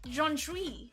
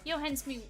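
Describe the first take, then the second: First: The surname begins with a sh sound. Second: The surname begins with an s sound. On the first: A joking mispronunciation picked up from the chat. The speaker calls it wrong. "So I've been pronouncing it like that because I thought it was funny" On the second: The player's actual name. The speaker calls it right. "It's Johan Sui"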